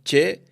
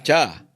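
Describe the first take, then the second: First: The word ends with an e vowel. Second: The word ends with an a vowel. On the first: This is how it is said in Valencia. "Valencia decimos che" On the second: This is how it is said in Castellón. "en Castellón dicen cha"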